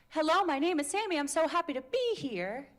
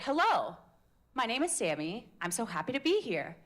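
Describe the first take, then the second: First: Higher, bouncy greeting with rising ends; bouncy sing-song. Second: "Hello" dips, then steadier settled tune; evener melody. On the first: Coach shows a sing-song intro to the class. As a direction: chirp it up and down like a happy kid. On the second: Coach contrasts a steadier intro for the class. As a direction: say it with a calmer falling line. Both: Shown as a demonstration. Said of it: "Or is it".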